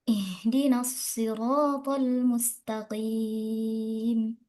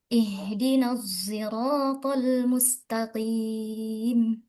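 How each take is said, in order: First: Sirat begins with an emphatic s sound. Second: Sirat begins with an s blended toward z. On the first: "dengan shad" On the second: "membaca shad dengan biismam dengan ismam"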